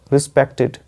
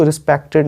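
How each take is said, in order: First: "रिस्पेक्टेड" with short i in the last syllable; ending said as -tid. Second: "रिस्पेक्टेड" with a full e in "टेड"; ending said as -ted. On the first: Teacher correcting learners, "रिस्पेक्टेड" ending in short -tid. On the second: Teacher showing what not to say, "रिस्पेक्टेड" ending in -ted. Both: Shown as a demonstration. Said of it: "इसको रिस्पेक्टेड नहीं बोलते".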